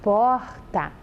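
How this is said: The word is said in another regional accent. "em alguns estados do Brasil mesmo as pessoas falam porta. É diferente"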